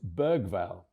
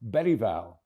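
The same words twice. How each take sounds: First: The G is said the English way. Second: The G is said the Swedish way. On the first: This is the common anglicised version. "known to most of you now as" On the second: This is how the player says his own name. "the proper way to say his second name is Bergvall, as in the late Sven-Göran Eriksson"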